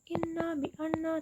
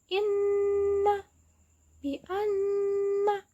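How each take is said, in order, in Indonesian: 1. Bunyi sengaunya pendek dan tidak ditahan. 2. Bunyi sengaunya ditahan dua harakat. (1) "Bukan inna bi anna" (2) "tapi inna bi anna"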